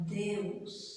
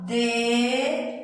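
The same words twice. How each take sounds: First: Deus said as one syllable with a faint u; soft joined diphthong. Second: Deus stretched into two syllables, De and us; wrong split vowels. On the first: Teacher showing pupils the right way to say Deus. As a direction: softly glide the eu in Deus. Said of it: "eu falo Deus". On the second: Teacher showing pupils how not to say Deus. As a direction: break Deus apart. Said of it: "porque eu não falo Deus". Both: Shown as a demonstration.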